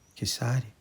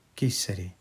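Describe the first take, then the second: First: The name is said with an s sound. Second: The name is said with an s sound.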